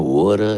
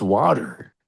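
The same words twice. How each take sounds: First: "Woulda" for water, Philly vowel, no final R; mock Philadelphia accent on "Woulda"; imitated Philadelphia accent. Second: "water" with a clear final R; "water" carefully pronounced, no Philly vowel; standard pronunciation. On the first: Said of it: "then she talks like". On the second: Shown as a demonstration. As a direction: say "water" in a neutral Midwest accent, R sounded. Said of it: "not quackers".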